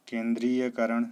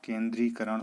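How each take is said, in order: First: केंद्रीयकरण with an extra "ya" syllable; wrong form. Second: केंद्रीकरण without any "ya" syllable; correct form. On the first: Teacher voices the common error, "ya" inside केंद्रीयकरण. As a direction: say केंद्रीयकरण louder, keeping the "ya". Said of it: "केंद्रीकरण होता है". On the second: Teacher gives the right form, केंद्रीकरण without "ya". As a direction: go from "dri" straight to "karan" in केंद्रीकरण. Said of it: "होता है". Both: Shown as a demonstration.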